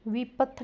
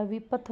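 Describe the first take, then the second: First: विपथ said as "veepath"; wrong long vowel. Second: Said in the usual way. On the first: Shown as a demonstration. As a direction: lengthen the first i in विपथ. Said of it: "विपथ नहीं होता". (विपथ को "वीपथ" बोलते हुए) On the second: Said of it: "विपथ होता है".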